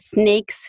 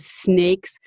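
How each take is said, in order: First: The s sounds are lisped like th. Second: The s sounds are clear hissing s. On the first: The speaker calls it wrong. "I said S's through my th" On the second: The speaker calls it right. "instead of snakes"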